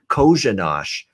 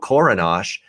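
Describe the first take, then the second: First: The consonant after the first vowel is a ZH. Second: The consonant after the first vowel is an R. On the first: The speaker calls it right. "It's actually Kozhanosh. The first R in his name is an S H sound" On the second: The speaker calls it wrong. "I even got the San Jose goalie wrong initially"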